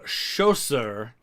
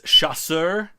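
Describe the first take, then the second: First: The first syllable sounds like 'show'. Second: The first syllable sounds like 'sha'. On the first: The speaker calls it wrong. "I kept saying chausseur, which is a completely different French word that has a U in it" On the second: The speaker calls it right. "it's chasseur"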